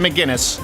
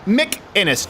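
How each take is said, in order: First: The name is said with a hard g sound. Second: The name is said without a g sound. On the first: The speaker calls it wrong. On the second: The speaker calls it right.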